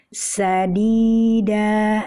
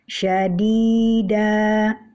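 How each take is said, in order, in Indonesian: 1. Kata ini diawali dengan bunyi 's' biasa. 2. Kata ini diawali dengan bunyi 'sh'.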